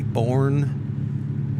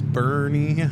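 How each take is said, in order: First: The name is said as one syllable. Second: The name is said as two syllables. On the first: The speaker calls it wrong. "most people who don't know will say born" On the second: The speaker calls it right. "it's not born, it's Bernie"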